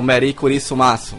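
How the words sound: It is said with a Japanese accent. "Existe uma adaptação do jeito de falar. Eles falam"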